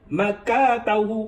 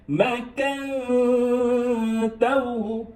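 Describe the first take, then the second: First: The n is dropped with no nasal hum. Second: A held nasal hum comes before 'tahu'. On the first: "jangan bunyi N" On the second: "dengung kan. So macam ni"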